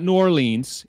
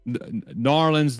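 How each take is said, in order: First: The name is said in a plain, neutral accent. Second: The name is said in a Southern accent. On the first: "It's not New Orleans" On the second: "It's my terrible, terrible Southern accent"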